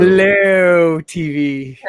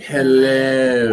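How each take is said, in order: First: "Hello" dragged out very slowly; drawn-out Hello. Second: "Hello" stretched long with a rising end; drawn-out Hello. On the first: Shown as a demonstration. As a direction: stretch "Hello" long and slow. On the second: Retold or imitated. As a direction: drag out "Hello" slowly. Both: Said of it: "You just drag it out".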